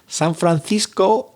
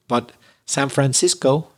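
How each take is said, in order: First: It is said with a Spanish pronunciation. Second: It is said with an English pronunciation. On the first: "if you're Spanish" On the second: "if you're an English speaker"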